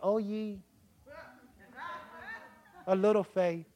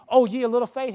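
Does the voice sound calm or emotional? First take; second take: calm; emotional. First: It is said calmly, without strong emotion. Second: It is said with strong, heated emotion. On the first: The speaker feels no strong emotion. The speaker calls it wrong. "He didn't say it like that" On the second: The speaker is upset at being woken. The speaker calls it right. "Jesus had emotion. When Jesus asked him"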